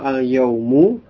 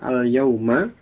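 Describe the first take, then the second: First: The word ends with a short 'u' vowel. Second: The word ends with a short 'a' vowel. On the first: It simply means a day. "al-yaumu dengan dhamma" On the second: It means on that particular day. "kalau dibaca dengan fathah al-yauma"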